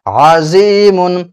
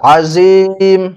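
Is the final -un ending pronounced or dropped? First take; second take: pronounced; dropped. First: The word ends with a nasal -un sound. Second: The word ends on a bare m sound. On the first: The reading continues without stopping. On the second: The reader stops at this word.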